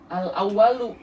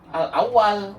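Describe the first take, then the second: First: The final vowel -u is pronounced. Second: The final vowel is dropped.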